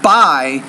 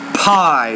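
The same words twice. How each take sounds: First: The P is said with little air. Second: The P is said with a strong puff. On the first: The speaker calls it wrong. "It's not pie" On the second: The speaker calls it right. "you have to pronounce it with more air"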